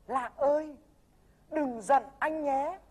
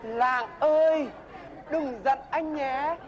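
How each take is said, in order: First: Tender demo plea. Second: Slow, gentle pleading apology; tender retake. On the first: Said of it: "chú phải nói với Lạng thế này này". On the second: After a slip the mentor redoes the apology line, slow and tender. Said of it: "Lỗi mồm". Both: Shown as a demonstration.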